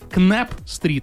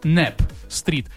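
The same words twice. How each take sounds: First: It is pronounced in a Russian-style way. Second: It is pronounced in an American English way. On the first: The speaker calls it wrong. "и не Knapp Street" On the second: The speaker calls it right. "а Knapp Street"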